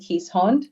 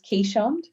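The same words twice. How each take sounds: First: The name is said with a European pronunciation. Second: The name is said with an Australian pronunciation. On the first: "the more European way" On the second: "the Australian way of pronouncing it"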